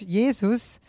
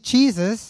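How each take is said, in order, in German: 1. Der Name wird deutsch ausgesprochen. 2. Der Name wird englisch ausgesprochen. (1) "in Deutsch" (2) "in Englisch"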